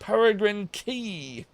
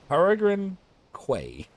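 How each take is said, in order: First: The last word is said like 'key'. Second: The last word is said like 'kway'. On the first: "If it's pronounced key" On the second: "That's what it looks like it's"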